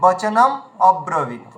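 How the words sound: The words are split with a break between. The speaker calls it wrong. "অনেকে বলেন বচনম অব্রবীত, প্রয়োজনটা কি আছে?"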